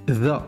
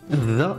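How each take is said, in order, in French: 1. Il commence par un son th sonore. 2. Il commence par un son th sonore.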